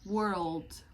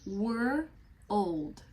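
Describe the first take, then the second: First: It is said quickly, blended into one syllable. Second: It is said slowly as two separate parts. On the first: "E aí você vai começando a falar mais rapidinho" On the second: "a gente pega essas duas palavrinhas aqui, ó, were old. Fala comigo"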